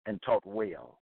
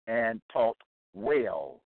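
First: Said in the usual way. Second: "taught" and "well" drawn out slowly, set apart; emphatic repeat. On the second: Real, not acted. Preacher tells Bible teachers the standard, slow and emphatic on "well". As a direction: stretch "taught", pause, land hard on "well".

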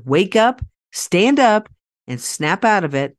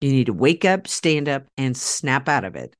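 First: Louder and higher, a motivational shout; rally the crowd from the stage; rousing speaker's call. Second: Said in the usual way. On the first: Shown as a demonstration. Speaker rousing an audience of pet parents, a loud call. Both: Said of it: "as I would say in my speaking career".

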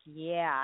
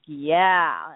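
First: Soft retold yeah; understated echo. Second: Punchy imitated yeah; amped-up client. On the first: Coach answers her amped-up client, understated echo. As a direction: echo him much more quietly. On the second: Client spots a girl and answers his coach, amped up. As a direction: lightly mimic a keen client. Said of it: "all amped up".

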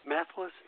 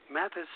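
Both takes have the same delivery.

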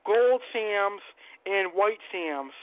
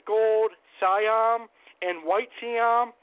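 First: "Sams" said as one syllable, rhyming with hams; mispronounced fish name. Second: "Siam" in two syllables, sigh-AM then see-AM; tentative corrected pronunciation. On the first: Host unsure of the fish's name, saying "Sams" as one syllable. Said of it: "I'm probably mispronouncing it". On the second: Host guessing at the proper name, "Siam" slowly in two syllables. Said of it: "I'm probably mispronouncing it, but". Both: Real, not acted.

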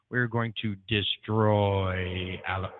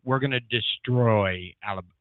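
First: Slow, booming echo announcement; echo effect. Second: Said in the usual way. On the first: Shown as a demonstration. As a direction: drag it out like an echo. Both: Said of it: "Should I do my echo effect?".

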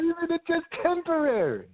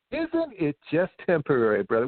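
First: Much higher, sing-song mock of the question; echoing the friend's question in a high mocking voice. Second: Said in the usual way. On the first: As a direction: parrot it back to ridicule it.

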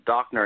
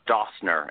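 First: Dockner with a hard k sound, "DOCK-ner"; correct pronunciation. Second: Dossner with an s in place of the k, "DOSS-ner"; wrong pronunciation. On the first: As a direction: say "Dockner" crisply with a clear k. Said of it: "I'm glad that I know it's Dockner". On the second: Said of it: "Dockner and Dander, not Dossner". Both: Shown as a demonstration.

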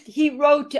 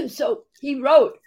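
First: Clearing the throat mid-sentence; choking on a drink. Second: Coughing, voice catching; words squeezed out between coughs; choking on a drink. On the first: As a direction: cough then words, recovering. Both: Real, not acted. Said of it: "went down the wrong pipe".

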